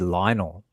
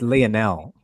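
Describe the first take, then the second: First: The name is said the common, usual way. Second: The name is said the family's own way. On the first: Strangers who see the name say it this way. The speaker calls it wrong. "they say Lionel" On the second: This is how the name is meant to be said. The speaker calls it right. "it's Lionel"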